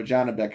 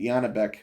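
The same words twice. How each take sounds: First: Janibek said with a J sound, "JAH-nee-bek"; alternate name pronunciation. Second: Janibek said with a Y sound, "YAH-nee-bek"; alternate name pronunciation. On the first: Commentator offering another version of the name, Janibek with a J. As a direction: say Janibek starting with a hard English J. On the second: Commentator unsure of the fighter's name, Janibek with a Y. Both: Shown as a demonstration. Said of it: "however you pronounce his name".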